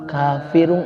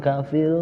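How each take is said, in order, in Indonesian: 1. Kata ini berakhir dengan akhiran -un yang sengau. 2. Kata ini berhenti setelah bunyi r. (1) "Kafirung aja" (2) "jangan kafir, ya, kayak ngambang gitu"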